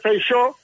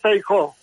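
First: The name is pronounced the Galician way. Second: The name is pronounced the Castilian way. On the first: Few people say it like this. The speaker calls it right. "é raro encontrar un tipo do Parlamento galego que diga Feixó" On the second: Almost everyone says it like this. The speaker calls it wrong. "todo o mundo diz Feijó"

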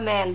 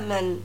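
First: The vowel is a full open 'a' sound. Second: The vowel is a short reduced 'uh' sound. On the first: The speaker calls it wrong. "لكن أنا مش بنطقها man" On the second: The speaker calls it right. "بقولها من"

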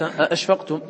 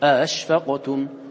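First: The second glottal stop is pronounced fully and clearly. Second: The second glottal stop is softened toward a vowel. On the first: This is the reading of some other reciters. "بعض القراء حقق الآخرة" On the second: This is the reading of Nafi's tradition. "يحقق الأولى كما يحققها غيره ويسهل الآخرة بين"

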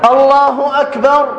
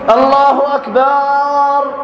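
First: The vowel after the b is short. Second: The vowel after the b is drawn out long. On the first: It means God is greatest. The speaker calls it right. "هي الأصل فيها" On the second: The word turns into another meaning. The speaker calls it wrong. "مد الباء"

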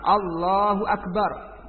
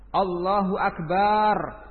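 First: The vowel after the b is kept short. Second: The vowel after the b is drawn out long. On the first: It states that God is the greatest. The speaker calls it right. "jadi harus tepat" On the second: It names a kind of musical instrument. The speaker calls it wrong. "ba-nya panjang"

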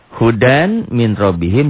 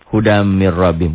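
First: The n sound is pronounced separately before min. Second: The n merges into a nasalized m sound.

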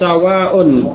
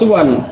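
First: The first vowel is a, with a long ending. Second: The first vowel is u, with a short ending. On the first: "sinnya fa kalimah huruf pertama di fathah" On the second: "suwan dengan dhammah pada huruf sin"

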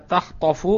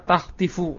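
First: The vowel on the t is an 'a'. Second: The vowel on the t is an 'i'. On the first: "bi fathhi ta" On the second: "wa yajuzu kasruha"

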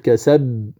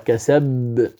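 First: The final b has a light, undoubled echo. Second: The final b has a heavy, doubled echo. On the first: The speaker calls it right. "تقلقلها" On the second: The speaker calls it wrong. "والبعض يقرأ كسب، وهذا خطأ، لأنه يوهم أن القلقلة كبرى"

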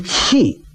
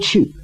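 First: The word is said with the spread vowel 'qi'. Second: The word is said with the rounded vowel 'qu'. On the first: This is the character's regional pronunciation. "他说气，什么口音" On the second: This is the standard pronunciation. "他不说去"

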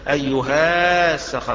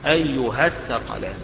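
First: The vowel after the h is long. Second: The vowel after the h is short. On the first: The speaker calls it wrong. "مش هيتقال أيها الثقلان، ما تنفعش" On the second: The speaker calls it right. "تحذف الألف تقرى فتحة بس"

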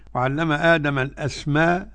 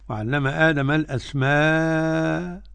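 First: The long vowel is held for two counts. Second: The long vowel is held for four counts.

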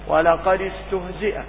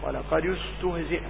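First: The final dal is joined with an i vowel. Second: The final dal is joined with a u vowel. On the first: This is the reading of Hafs. "تكسروا دال للتخلص من السكنين" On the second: This is the reading of some other reciters. "البعض يقول ولقد استهزئ، لأن الفعل استهزئ الثالث له الضم"

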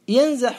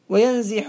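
First: The middle root vowel is a short 'a'. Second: The middle root vowel is a short 'i'. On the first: This is the form expected by the regular rule. "بالفتح المقيس" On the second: This is the form that is widely used. "بالكسر المشهور"

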